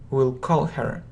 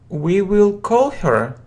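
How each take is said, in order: First: Will is shortened and joined to we. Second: The word will is said in full.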